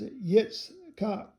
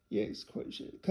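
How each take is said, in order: First: Said in the usual way. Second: Breathy self-check under the breath; whispered trial of Yitzchak; whispered repeat. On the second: Real, not acted. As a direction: whisper the name to yourself. Reader repeats name to herself.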